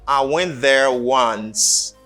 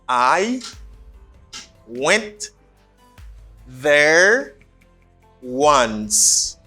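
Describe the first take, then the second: First: It is said quickly with 'I' reduced. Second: It is said slowly with a full 'I'.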